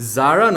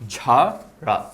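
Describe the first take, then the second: First: The name begins with a 'z' sound. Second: The name begins with a 'zh' sound. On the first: The speaker calls it wrong. "জারাকে জারা না বলে" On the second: The speaker calls it right. "বলবো ঝারা"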